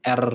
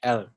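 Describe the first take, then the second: First: R with a hard, bouncing trill; R said as a clear Indonesian trill; rolled Indonesian R. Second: Blur the R, English style, no roll; R left vague, as English speakers say it; faint English R. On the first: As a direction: roll the R clearly and firmly. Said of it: "pasti R-nya yang mantul. ... Bener jelas". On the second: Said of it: "R-nya itu samar-samar gitu kan". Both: Shown as a demonstration.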